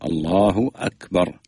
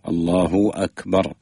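First: Akbar starts with a clean glottal stop, no 'w'. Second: The vowel stretches into a 'w' before Akbar. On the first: The speaker calls it right. "وإنما أكبر على القطع" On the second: The speaker calls it wrong. "يشبع حركة الضمة على لفظ الجلالة حتى يعني تخرج مخرج الواو"

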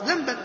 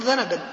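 First: The word has two syllables, no vowel after n. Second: The word has three syllables, a vowel after n. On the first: A sin. "ما هو ذنبا" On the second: A tail. "هو يقول ذنبا"

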